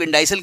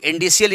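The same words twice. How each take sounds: First: Indicial said "in-DIE-sal"; alternative pronunciation. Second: Indicial said "in-DEE-see-al"; alternative pronunciation. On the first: Teacher showing students the other common way, indicial as "in-die-sal". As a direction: say indicial with an "eye" in the middle. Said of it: "कुछ लोग indicial कहते हैं". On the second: Teacher showing students how some people say it, indicial as "in-dee-see-al". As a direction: say indicial with an "ee" in the middle. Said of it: "कुछ लोग indicial equation कहते हैं". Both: Shown as a demonstration.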